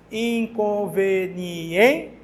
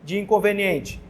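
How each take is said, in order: First: "Inconveniente" very slow, stretched, rising at the end; teacher slowly spelling out stress of "Inconveniente"; slow stress demo. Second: Said in the usual way. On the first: Shown as a demonstration. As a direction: draw out "Inconveniente" to show the stressed syllable. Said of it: "A mais forte é no em". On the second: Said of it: "Onde recai a sílaba tônica".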